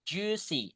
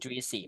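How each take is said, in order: First: No separate i vowel follows the u. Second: A separate i vowel follows the u. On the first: The speaker calls it right. "I-nya nggak dibaca ya" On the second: The speaker calls it wrong.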